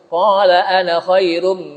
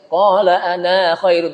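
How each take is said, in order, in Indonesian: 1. Vokal akhir pada ana itu pendek. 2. Vokal akhir pada ana itu panjang. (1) "kita baca pendek" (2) "Tidak dibaca"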